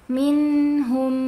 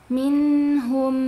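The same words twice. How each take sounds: No difference in how they are said.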